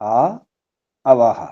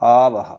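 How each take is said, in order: First: The two words are said separately. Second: The two words are merged into one. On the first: "అందులో ఆ ఒకటి ఒకసారిగా ఆ తర్వాత అవహ" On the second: "సంధి"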